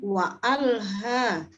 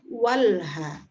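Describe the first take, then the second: First: A glottal stop separates the two words. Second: The words run together with no glottal stop. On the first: The speaker calls it right. "tetap berbunyi wa alha" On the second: The speaker calls it wrong. "bukan walha"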